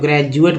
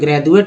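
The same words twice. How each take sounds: First: The middle consonant is a j sound. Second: The middle consonant is a soft dental d. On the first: "ज पढ़ते हैं" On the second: "द पढ़ेंगे"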